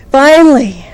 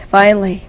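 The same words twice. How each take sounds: First: Relieved outburst. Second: Said in the usual way. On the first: Retold or imitated. Relief after long delay.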